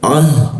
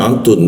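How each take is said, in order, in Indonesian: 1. Kata ini berakhir dengan bunyi 'ah' yang lembut. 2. Kata ini berakhir dengan bunyi 'tun' yang penuh. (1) "kalau dimatikan jadi ah" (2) "ketika dibaca jadinya atun"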